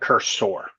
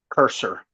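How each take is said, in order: First: The second syllable is said with an 'or' sound. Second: The second syllable is said with an 'er' sound. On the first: The speaker calls it wrong. "even though it's spelled with an O" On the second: The speaker calls it right. "it's pronounced more like an E R"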